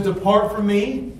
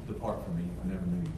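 First: Slow, heavier "Depart from me"; drawn-out, weighty judgment; solemn pronouncement. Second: Much softer, low "Depart from me"; quiet, grave pronouncement; hushed verdict. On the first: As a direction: lean on "Depart" like a verdict. Preacher voicing Christ's judgment. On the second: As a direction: say the sentence almost under the breath. Quoting Christ's judgment quietly. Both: Acted.

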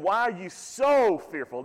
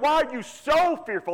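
First: Said in the usual way. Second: "so" lifted high and leaned on; stress on so. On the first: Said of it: "Notice the word "so". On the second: Shown as a demonstration. Preacher quoting Jesus to his congregation, leaning on "so". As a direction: raise the word "so" well above the rest, quizzing them. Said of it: "with the word "so" in there".

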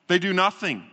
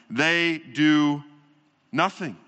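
First: "They" hit hard, "do nothing." falling; accusing the crowd who ignored the news; stress on THEY. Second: Slow, weighty "do", then a beat and a dropped "nothing."; the preacher drives home inaction; stress on DO, pause before nothing. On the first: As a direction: point at them with "They". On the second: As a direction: lean on "do", pause, let "nothing." fall away. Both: Shown as a demonstration.

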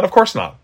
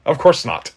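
First: Emphatic denial. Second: Said in the usual way. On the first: Real, not acted.

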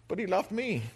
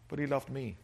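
First: Laughing emphasis. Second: Soft sincere. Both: Shown as a demonstration.

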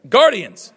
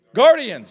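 First: Guardians louder again, falling; Guardians, pointedly repeated; emphatic repeat. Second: Guardians said loud, falling; Guardians, corrected with force; stressed correction. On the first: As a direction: insist on Guardians. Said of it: "I can't say that word". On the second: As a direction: hit Guardians firmly. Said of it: "Someone said Indians". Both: Shown as a demonstration.

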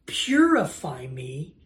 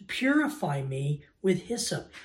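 First: Slow, drawn-out plea; begging plea. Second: Said in the usual way. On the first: Acted. David begs God for extreme cleansing, pleading. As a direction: stretch it out as an earnest plea. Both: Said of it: "He's begging for the most extreme version".

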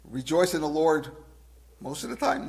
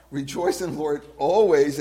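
First: Wrong version to be corrected; mock watered-down quote. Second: Louder, firm on always; emphatic. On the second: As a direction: correct the watered-down version. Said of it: "emphatically he says". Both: Shown as a demonstration.

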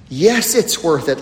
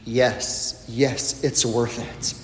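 First: Said in the usual way. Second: Quiet, low reassuring yes; soft affirmation. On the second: Acted. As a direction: answer it gently, almost whispered. Quiet answer to the question.

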